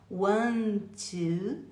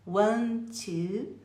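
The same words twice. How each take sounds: The two takes are said the same way.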